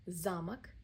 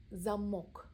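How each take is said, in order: First: "Замок" stressed on ЗА, rising; stress on first syllable. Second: "замок" stressed on the final О, falling; "замок" with a long clear final O; stress on last syllable. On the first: Teacher drilling learners, stress on the first syllable. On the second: Teacher drilling learners, stress on the final syllable. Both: Shown as a demonstration. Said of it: "Practice drill".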